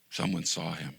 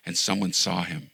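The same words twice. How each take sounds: First: Quiet echo. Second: Said in the usual way. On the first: Acted. Pastor repeating the point to the congregation, hushed.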